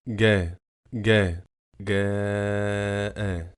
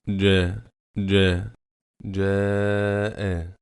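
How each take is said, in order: First: It is said with the Egyptian colloquial letter. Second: It is said with the eloquent Classical Arabic letter. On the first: The speaker calls it wrong. "and not" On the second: The speaker calls it right. "The correct pronunciation is"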